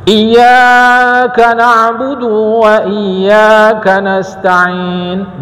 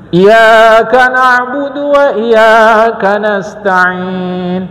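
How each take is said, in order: First: The d is lengthened; the y stays doubled. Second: The y in iyyaka is single, not doubled. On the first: The meaning stays the same. "Dalnya kan panjang" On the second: It comes to mean a sun god. "Tak pakai tasydid"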